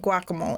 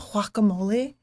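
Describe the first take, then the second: First: It is said with a plain English pronunciation. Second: It is said with an exaggerated foreign pronunciation. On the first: The speaker's everyday way of saying it. The speaker calls it right. "I say guacamole" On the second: The speaker is mocking a pretentious way of saying it. The speaker calls it wrong. "I don't want to be the person like"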